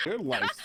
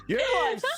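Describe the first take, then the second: First: Said in the usual way. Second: Much higher, louder shocked cry; shocked exclamation. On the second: Real, not acted. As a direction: burst out in disbelief at the news. Startled reaction to allergy news.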